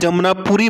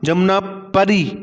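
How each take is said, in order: First: The syllable after 'Jamna' is 'puri' with u. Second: The syllable after 'Jamna' is 'pari' with a. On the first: The speaker calls it wrong. "अगर कहीं पे मैं जमनापुरी बोल दूं तो गलत होगा।" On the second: The speaker calls it right. "ये सही नाम है।"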